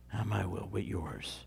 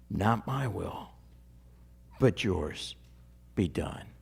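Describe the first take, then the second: First: Barely spoken, softer still, fading away; fading echo. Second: Soft, low, reverent prayer; hushed prayer. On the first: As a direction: let it sink to almost nothing. Echoing the prayer even softer. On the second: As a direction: pray it gently, almost to yourself. Jesus's prayer quoted reverently. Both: Acted.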